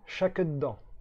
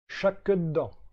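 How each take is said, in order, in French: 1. Le premier mot commence par un son ch. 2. Le premier mot commence par un son ch.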